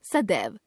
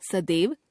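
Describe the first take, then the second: First: Said in the usual way. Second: सदैव as "sa-dev" with closed e; mispronounced ai. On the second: Shown as a demonstration. Teacher showing a common error, सदैव with e for ai. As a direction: put "e" for "ai" in सदैव. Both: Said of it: "ए, ऐ संबंधी अशुद्धियां".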